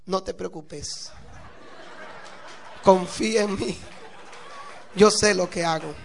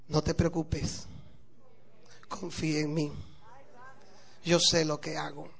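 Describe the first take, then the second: First: Grin through it, then let the last line ring out; smiling reassurance. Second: Low, soft, unhurried reassurance; placid calm. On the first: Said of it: "la miró con una sonrisa". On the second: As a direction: serene and sure of himself, softly. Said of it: "muy plácido, así muy tranquilo". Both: Acted.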